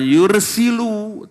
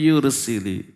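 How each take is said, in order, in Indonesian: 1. Kata itu berakhir dengan vokal 'u'. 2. Kata itu berakhir dengan vokal 'i'. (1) "Bukan yursilu" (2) "tapi yursili"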